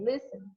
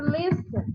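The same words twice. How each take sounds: First: "listen" with the final N almost swallowed, softer; "listen" ending in a faint, barely spoken N; barely sound the N. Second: Said in the usual way. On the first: Shown as a demonstration. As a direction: say "listen" with the N nearly silent. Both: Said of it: "A gente mal fala o N".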